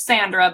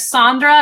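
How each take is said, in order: First: "Sandra" with a short a as in "sand"; short-a pronunciation. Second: "Sandra" with an open "ah", as SAHN-dra; Sondra pronunciation. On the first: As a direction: say "Sandra" as SAN-dra. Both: Shown as a demonstration. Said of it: "There's Sandra and there's Sandra".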